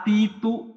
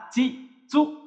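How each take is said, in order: First: "তি, তু" said with a plain t, as the way we did not read it; wrong reading. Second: "চি, চু" said with a ch sound and pitched up; correct reading. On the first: Teacher shows the reading students never used, lightly raised. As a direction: read "তি" and "তু" with a hard t sound. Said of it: "তে, তো পড়ি নাই". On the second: Teacher stresses the right reading against the wrong one. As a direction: hit "চি" high, with a clear ch. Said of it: "আমরা পড়ছি তা". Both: Shown as a demonstration.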